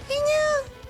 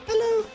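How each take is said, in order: First: The voice is pitched high and shrill. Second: The voice is pitched somewhat lower. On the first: "that's too high and annoying" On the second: "I need to like bring it down a bit"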